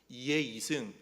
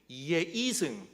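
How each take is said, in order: First: It is said with Gyeongsang dialect pitch accent. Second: The same.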